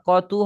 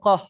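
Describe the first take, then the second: First: The word ends in a tu sound. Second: The word ends in an h sound. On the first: The reading continues without stopping. "টেনে পড়লে তু হবে" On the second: The reading stops at this word. "ওয়াকফ করার সময় হা পরিণত হবে"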